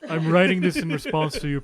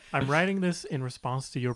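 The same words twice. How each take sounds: First: It is read in a put-on character voice. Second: It is read in a plain, natural voice.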